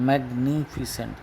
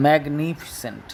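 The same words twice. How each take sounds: First: Magnificent drawn out again, a little softer; softer syllable repeat. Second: Magnificent drawn out as mag-ni-fi-cent; syllables spelled out. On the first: Teacher repeating magnificent slowly for pupils. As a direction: echo magnificent slowly, quieter. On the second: Teacher sounding out Magnificent syllable by syllable. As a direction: stretch Magnificent into four slow syllables. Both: Shown as a demonstration. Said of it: "চারটে syllable আছে".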